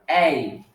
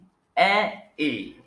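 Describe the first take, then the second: First: Two vowel sounds glide together into one sound. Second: Two vowel sounds are said separately with a break. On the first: "when you put it together, you get something like" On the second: "Pronounce it gradually before you make it one"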